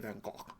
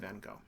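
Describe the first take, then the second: First: The name is said with a Dutch pronunciation. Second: The name is said with a French-style pronunciation. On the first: The speaker calls it wrong. "which is terrible sounding, but that's apparently the way it's supposed to be said in the Dutch" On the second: The speaker calls it right. "which is the way the, the French say it anyway"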